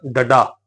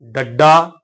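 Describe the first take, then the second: First: ਡੱਡਾ said as ḍaḍā, undoubled; single middle consonant. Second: ਡੱਡਾ as ḍaḍḍā, held middle ḍ; doubled middle consonant. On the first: Teacher reading it as written, ਡੱਡਾ without doubling. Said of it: "ਜੇ ਆਪਾਂ ਉਵੇਂ ਉਚਾਰਨ ਕਰਾਂਗੇ". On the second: Teacher showing the correct reading, ਡੱਡਾ with doubled ḍ. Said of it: "ਅੱਧਕ ਦਾ ਉਚਾਰਨ ਕਰਨਾ ਪਏਗਾ". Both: Shown as a demonstration.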